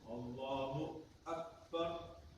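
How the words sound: There is a short pause between the words. The opening phrase is still valid. The speaker calls it right. "Kalau berhentinya sebentar"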